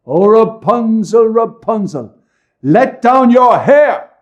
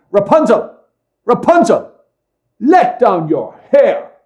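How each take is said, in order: First: High ringing call, drawn out slowly; loud call. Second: High ringing call up to a tower; loud call. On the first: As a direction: cry it up to the window, loud and high. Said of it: "she called out". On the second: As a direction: call out loud and high, slowing on the last words. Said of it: "she would cry". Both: A narrator's reading.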